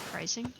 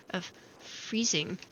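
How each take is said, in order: First: Soft whispered question. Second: Said in the usual way. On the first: Shown as a demonstration. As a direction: whisper it with a rise.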